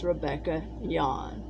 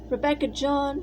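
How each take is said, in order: First: The surname begins with a Y sound. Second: The surname begins with a J sound. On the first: This is the German pronunciation of the name. The speaker calls it right. "the J is pronounced like a Y" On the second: This is how most people said it in America. The speaker calls it wrong. "which most people always said"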